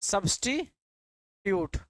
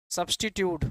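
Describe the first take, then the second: First: substitute drawn out syllable by syllable; slow dictation. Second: Said in the usual way. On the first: Shown as a demonstration. (धीरे धीरे substitute) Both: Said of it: "इसी को कहते हैं आप substitute".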